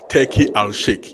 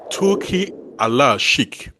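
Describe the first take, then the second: First: The name is pronounced the anglicized English way. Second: The name is pronounced the Arabic way. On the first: "as English speakers, we will say" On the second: "that's the actual pronunciation of his name"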